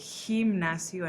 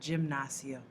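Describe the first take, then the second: First: The word begins with an H sound. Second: The word begins with a J sound. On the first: The speaker calls it right. "so you remember to say gimnasio" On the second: The speaker calls it wrong. "and not gimnasio"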